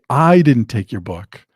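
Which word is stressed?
I. The stress falls on the word I. Someone else took it. "it means that I didn't take it, but somebody else did"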